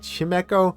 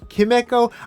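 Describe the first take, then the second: First: The name begins with a ch sound. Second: The name begins with a hard k sound. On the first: "I've heard people say" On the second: "I always thought it was like chemical"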